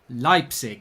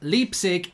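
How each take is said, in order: First: The name is said with German pronunciation. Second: The name is said as English spelling suggests. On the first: The speaker calls it right. "it is pronounced Leipzig? So there's a little bit of German uh, town pronunciation" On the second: The speaker calls it wrong. "even though it looks like it is Leipzig"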